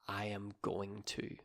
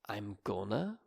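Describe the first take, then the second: First: Every word is said fully and separately. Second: The words are reduced and run together. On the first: "instead of I am going to" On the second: "It gets shortened to I'm gonna"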